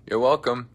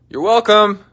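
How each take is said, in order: First: Said in the usual way. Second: Smug mock.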